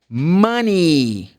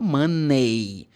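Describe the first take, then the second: First: The final vowel sounds like 'ee'. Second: The final vowel sounds like 'ay'. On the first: The speaker calls it right. "the E Y should be pronounced like this. E" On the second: The speaker calls it wrong. "not money"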